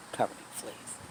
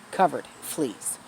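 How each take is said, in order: First: Horrified whisper. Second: Said in the usual way. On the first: Real, not acted. Vlogger telling viewers about the rescued dog, aghast whisper. Repeats the horror of the fleas.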